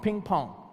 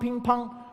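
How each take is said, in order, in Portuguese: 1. É dito com sotaque americano. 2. É dito com sotaque chinês. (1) "O americano é ping-pong" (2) "E o chinês é ping-pong"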